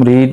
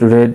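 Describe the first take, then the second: First: The vowel is long, as in seed. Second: The vowel is short, as in bed. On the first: It is the present form of the verb. "রিড হচ্ছে ভার্বের present form" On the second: It is the past form of the verb. "তবে উচ্চারণ একটু ভিন্ন হবে, রেড হবে"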